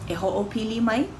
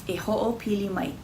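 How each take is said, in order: No difference in how they are said.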